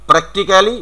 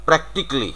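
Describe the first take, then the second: First: "practically" as prek-ti-kaa-li, rising; higher "practically", every syllable sounded; local "practically". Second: "practically" as PRAK-tik-lee; "practically" ending in "tik-li", falling; correct "practically". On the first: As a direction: say "practically" with a full "kaa" before "li". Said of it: "আমরা যেটা উচ্চারণ করছি". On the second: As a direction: say "practically" in three syllables without "ca". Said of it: "it is". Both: Shown as a demonstration.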